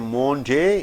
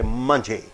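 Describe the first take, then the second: First: The first vowel is a full o sound. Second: The first vowel is a short uh sound. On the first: The speaker calls it wrong. "You don't say Monday" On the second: The speaker calls it right. "So O sound is not there, squeezed out"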